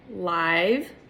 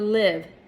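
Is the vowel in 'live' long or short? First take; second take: long; short. First: The vowel is a long 'eye' sound. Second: The vowel is a short 'ih' sound. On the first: Happening right now. "you hear the long I" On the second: To reside somewhere.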